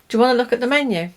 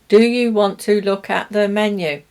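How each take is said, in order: First: The words run together with weak forms. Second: Each word is said fully and separately. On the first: It sounds like real everyday speech. The speaker calls it right. "People will say" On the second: It sounds mechanical, not how people talk. The speaker calls it wrong. "That's a robot"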